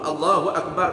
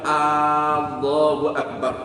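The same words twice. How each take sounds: First: The first vowel of Allahu is kept short. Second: The first vowel of Allahu is drawn out long. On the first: It states that God is the greatest. The speaker calls it right. "Allah Maha Besar" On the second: It asks whether God is the greatest, implying denial. The speaker calls it wrong. "Panjangkan huruf hamzah pada lafaz Allah itu seperti dibaca"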